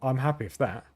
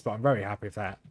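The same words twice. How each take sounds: First: Flat monotone delivery. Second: Flat monotone, no lift; deadpan monotone happiness. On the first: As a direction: say it with no life, monotone. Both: Real, not acted. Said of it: "by my monotone voice".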